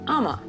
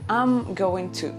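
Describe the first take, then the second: First: The whole phrase is squeezed into two syllables. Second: Every word of 'I'm going to' is said fully. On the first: "But you can also say" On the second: "You can say"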